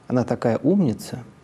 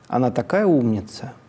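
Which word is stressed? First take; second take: умница; такая. First: The main stress falls on the word умница. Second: The main stress falls on the word такая. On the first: "или на слово «умница»" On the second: "можно перенести центр или на слово «такая»"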